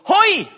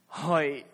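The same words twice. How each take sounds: First: It sounds excited, like the Kool-Aid man. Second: It sounds dismayed, announcing bad news.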